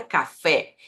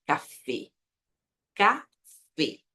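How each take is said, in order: First: Café with an open E like Portuguese. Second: Café with a closed Spanish E. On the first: Teacher showing the wrong open E in café. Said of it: "Não é café". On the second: Teacher giving the correct café with closed E. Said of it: "a pronúncia correta é". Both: Shown as a demonstration.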